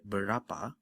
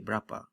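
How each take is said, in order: First: The first vowel is fully pronounced. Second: The first vowel is dropped, contracting the word. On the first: "like in the word berapa" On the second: "we tend to say berapa, you know, just without the berapa. So the uh sound gets dropped"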